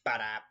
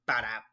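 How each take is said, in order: First: Quieter mouth-made ba-da chop; soft ba-da chop effect; softer chop sound effect. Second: Loud mouth-made chop noise, ba-da; loud ba-da chop effect; knife chop sound effect. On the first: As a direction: redo the chop noise more gently. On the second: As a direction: punch out a chopping sound with the mouth. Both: Retold or imitated. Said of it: "the sound effects are by me".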